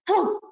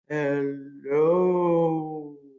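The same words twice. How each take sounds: First: The word is said quickly. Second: The word is drawn out slowly.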